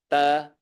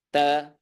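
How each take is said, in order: The two takes are said the same way.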